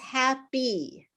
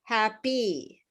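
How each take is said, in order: First: The final syllable is fully pronounced. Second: The same.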